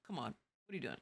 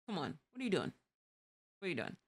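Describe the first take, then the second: First: Much softer, lower grumble at a bad driver; hushed weary disbelief; very soft exasperated mutter. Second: Quiet disbelief at the road; mild exasperated mutter. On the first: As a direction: barely voice the complaint. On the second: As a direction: mutter it to a bad driver under breath. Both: Shown as a demonstration. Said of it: "I say it just like that".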